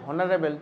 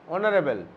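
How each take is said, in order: First: The word begins with an audible h sound. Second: The word begins directly with a vowel sound. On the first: It would take the article a. "এবার যদি আমি উচ্চারণ করি হনারেবল, তাহলে এ দিতে হতো" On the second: It takes the article an. "অনারেবল মানে সম্মানীয় ব্যক্তি"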